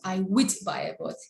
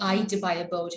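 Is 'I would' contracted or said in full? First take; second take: full; contracted. First: 'I would' is said in full as two words. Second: 'I would' is contracted to one short syllable. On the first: The speaker calls it wrong. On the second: The speaker calls it right. "it's easy for me if I say"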